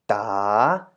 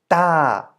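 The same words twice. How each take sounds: First: The pitch dips and then rises. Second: The pitch falls from high to low. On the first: "rising tone" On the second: "In a falling tone"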